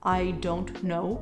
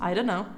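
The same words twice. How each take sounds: First: Each word is said fully and clearly. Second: The words are run together in a reduced form. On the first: "instead of" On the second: "You could just answer"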